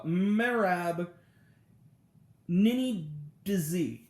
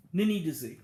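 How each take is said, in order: First: "Merab Nini Dizi" spelled out slowly, syllable by syllable; slow, effortful attempt at "Merab Nini Dizi"; careful name attempt. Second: Said in the usual way. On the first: Real, not acted. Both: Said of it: "I'm butchering this".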